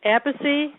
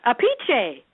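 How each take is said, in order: First: Appice said AP-iss, English way; plain Appice. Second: Apiche said a-PEE-keh, Italian way; Italian pronunciation. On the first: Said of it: "pronounces it a different way". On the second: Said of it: "How's that?". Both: Shown as a demonstration.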